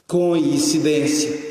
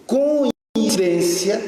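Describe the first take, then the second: First: Said in the usual way. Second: "Coincidência" slow and clipped the Portugal way, middle vowel dropped, as koisdesiɐ; Portuguese pronunciation. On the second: Shown as a demonstration. Preacher imitating how people in Portugal say "Coincidência", slow and higher. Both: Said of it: "Não é assim que a gente diz?".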